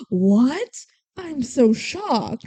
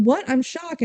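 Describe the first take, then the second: First: Drawn-out mock shock, slow and overdone; sarcastic. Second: Quicker, simpler retold shock, pitched higher; mock surprise. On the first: He pretends to be shocked at her confession, sarcastic. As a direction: feign shock, stretching it out slowly. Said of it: "He's being sarcastic". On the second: Imagining him confirming that he already knew, lightly acted surprise. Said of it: "would have taken was him going".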